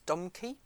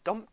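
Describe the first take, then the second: First: The name is said with two syllables. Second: The name is said with one syllable. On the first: This is how Americans say the name. "I think our American chums would refer to them as Domke" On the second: This is how the speaker usually says the name. "I tend to think of it as Domk"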